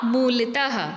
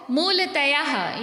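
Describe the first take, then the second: First: मूलतः said as "mool-tah"; मूलतः without any "yaa"; correct form. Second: मूलतयाः said as "mool-ta-yaah"; wrong extra या. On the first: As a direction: finish मूलतः on a short "tah". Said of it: "सही शब्द क्या होगा?". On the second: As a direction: put a "yaah" on the end of मूलतयाः. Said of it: "ये गलत शब्द है". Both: Shown as a demonstration.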